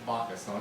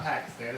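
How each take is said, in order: First: "Pakistan" said "bah-ki-stahn", low and soft. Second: "Pakistan" said "pack-is-tan", a crisp P; TV pronunciation. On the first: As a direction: soften the P of "Pakistan" almost to a B, with long ah's. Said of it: "It's a soft P". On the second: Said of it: "That's how they say it on T V". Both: Shown as a demonstration.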